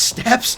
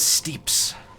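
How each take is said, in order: First: The vowel is a short e sound. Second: The vowel is a long ee sound. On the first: The speaker calls it right. "it's actually pronounced steps" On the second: The speaker calls it wrong. "I always called them like the steeps"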